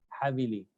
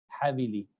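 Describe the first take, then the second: Both takes have the same delivery.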